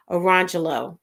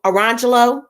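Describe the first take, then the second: First: Orangelo said lower with a falling tune, as the answer; settled pronunciation. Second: Orangelo said brightly with a rise, as a try; sounding out a name. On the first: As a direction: land the name orangelo firmly with a fall. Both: Shown as a demonstration. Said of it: "Yes, I've seen orangelo".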